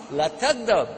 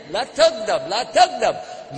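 First: Said in the usual way. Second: Slow, weighty la tagdab, la tagdab, each word drawn out; repeated advice, slow. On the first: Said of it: "Somebody said, Give me nasiha". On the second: Retold or imitated. Scholars repeating the hadith to the angry questioner, slow and grave. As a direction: lean on la tagdab slowly like a warning. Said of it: "And then".

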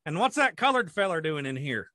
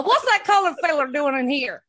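First: Put-on country farmer voice; old farmer. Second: Loud, higher mimicked farmer; copied old farmer. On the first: Following up as a farmer in a gas station, country farmer voice. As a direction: say it like a suspicious rural old-timer. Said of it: "the old farmers would sit in there". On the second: Co-host copying the farmer's follow-up, loud mock farmer voice. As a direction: parrot the old farmer loudly, pitched up. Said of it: "if I can try and copy you".

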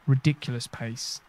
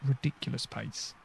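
First: Said in the usual way. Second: Said again under the breath; a soft, muttered echo; quiet repeat. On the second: Real, not acted. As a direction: mutter it a second time to yourself. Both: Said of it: "repeats the phrase".

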